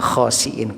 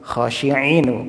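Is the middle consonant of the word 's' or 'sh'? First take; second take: s; sh. First: The middle consonant is a plain s sound. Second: The middle consonant is a sh sound. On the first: The apes are despised. The speaker calls it right. "pakai sin dan hamzah" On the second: The apes are devout. The speaker calls it wrong. "kera-kera yang khusyuk kalau gitu ya"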